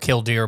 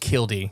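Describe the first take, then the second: First: The word ends with an audible R sound. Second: The word ends without any R sound. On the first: The speaker calls it wrong. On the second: The speaker calls it right.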